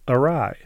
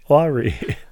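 First: It is said 'uh-rye', rhyming with 'eye'. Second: It is said 'ar-ee', like a name. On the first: The speaker calls it right. "which they pronounced correctly" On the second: The speaker calls it wrong. "he had always thought it was pronounced awry"

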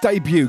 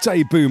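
First: The second syllable does not sound like 'boo'. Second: The word sounds like 'day' plus 'boo'. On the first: The speaker calls it right. "It's debut. Get it right" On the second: The speaker calls it wrong. "It's a day. Boo! Boo! Debut, my ass"

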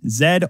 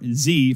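First: The letter is said the Canadian way, zed. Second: The letter is said the American way, zee.

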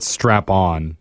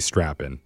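First: The second syllable is said as 'on'. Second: The second syllable is said as 'in'. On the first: The speaker calls it wrong. "Some people pronounce it Strap-on" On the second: The speaker calls it right. "but it's actually Strappin"

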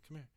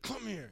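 First: It is said very softly, barely voiced. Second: It is said loudly and firmly. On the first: "I'd barely say it just see if he could pick up on it" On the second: "But I said it in a bunch of different ways"

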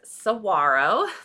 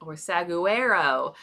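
First: The G sound is silent. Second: The G sound is clearly pronounced. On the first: The speaker calls it right. "The G is, or it sounds like it's silent" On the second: The speaker calls it wrong. "most people, when I ask and I show them that word without saying it first"

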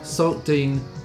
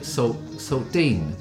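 First: The stress is on the first part. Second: The stress is on Dean. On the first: The speaker did not grow up in Brighton. The speaker calls it right. "put the emphasis on the first bit" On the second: The speaker grew up in Brighton. The speaker calls it wrong. "put the emphasis on the Dean"

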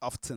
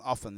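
First: The t sound is pronounced. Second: The t sound is left out. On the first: The speaker calls it wrong. "It's not often" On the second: The speaker calls it right. "The T is silent and often"

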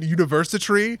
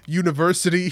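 First: The word is pronounced in an odd, distorted way. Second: The word is pronounced the ordinary way. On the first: The speaker calls it wrong. "he pronounced it university" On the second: The speaker calls it right. "he doesn't pronounce it university"

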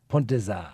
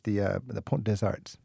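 First: The final T and S are silent. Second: The final T and S are pronounced. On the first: The speaker calls it right. "You don't pronounce the T and the S" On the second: The speaker calls it wrong. "so I said arts, but give me it correctly"

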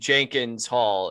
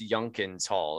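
First: The name starts with a J sound. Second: The name starts with a Y sound. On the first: This is how the spelling looks. "it'll look like it says Jenkins Hall" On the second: This is the official pronunciation. "it's actually like, no, it's Yunkins Hall"

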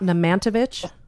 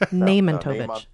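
First: The stress falls on a later syllable. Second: The stress falls on the first syllable. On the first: The speaker calls it wrong. "It's not Nemantovic" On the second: The speaker calls it right. "Nemantovic on the first syllable"

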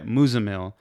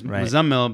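First: The name is pronounced in an anglicized way. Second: The name is pronounced in its original way. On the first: This is the version given to others. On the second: This is the person's real name. "my name is"

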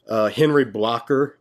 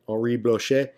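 First: The name is said with a rural American pronunciation. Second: The name is said with a French pronunciation. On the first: "if you're a redneck" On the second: "I think I said that right. ... I think it's a French name"

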